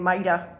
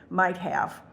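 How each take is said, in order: First: The words are run together into mighta. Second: Each word is articulated clearly and separately. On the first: The speaker calls it wrong. "Rather than saying mighta" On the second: The speaker calls it right. "I practiced saying might have"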